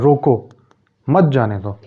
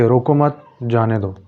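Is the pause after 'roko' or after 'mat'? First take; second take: after roko; after mat. First: The pause comes after the word roko. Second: The pause comes after the word mat.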